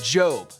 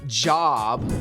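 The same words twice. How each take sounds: First: The vowel is long, as in 'robe'. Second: The vowel is short, as in 'job'. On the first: The name of the biblical man. The speaker calls it right. "but Job" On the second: The ordinary word for work. The speaker calls it wrong. "Not job, like a career"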